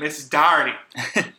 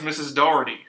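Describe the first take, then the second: First: The name is said in a Boston accent. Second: The name is said in a plain accent. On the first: This is how the name-holder herself said it. The speaker calls it wrong. "but she said it" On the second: This is the name's usual pronunciation. The speaker calls it right. "her name was"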